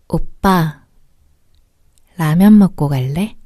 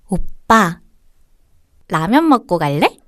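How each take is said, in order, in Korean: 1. 목소리가 유혹적이고 매혹적이에요. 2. 목소리가 귀엽고 사랑스러워요. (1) "두 번째 여성분 같은 목소리로 ... 조금 더 유혹적인 목소리" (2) "첫 번째 분은 굉장히 귀여운 목소리고"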